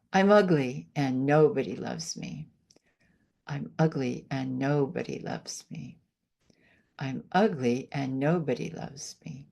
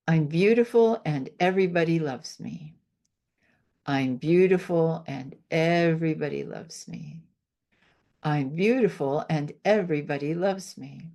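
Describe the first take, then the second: First: Lower, flat, deflated self-talk; negative affirmation demo. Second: Affirmation demo. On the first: Healer contrasting negative self-talk for the host, deflated. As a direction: let the words sink you down. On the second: Healer demonstrating a self-love affirmation to the host, assured. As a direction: say it like you believe it fully. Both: Shown as a demonstration. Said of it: "I'll show you one of my favorite things to do".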